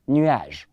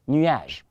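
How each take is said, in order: No difference in how they are said.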